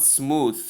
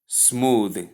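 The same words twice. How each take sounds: First: "smooth" ending in a voiceless th, as in tooth; mispronounced smooth. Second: "smooth" with a buzzed final th; correct smooth. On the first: Teacher showing a wrong smooth, mispronounced with voiceless th. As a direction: end "smooth" on an unbuzzed th. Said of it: "Both pronunciations here are wrong". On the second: Teacher stating the only correct pronunciation, smooth with voiced th. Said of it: "The only correct pronunciation is". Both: Shown as a demonstration.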